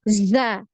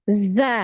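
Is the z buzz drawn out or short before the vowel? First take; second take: drawn out; drawn out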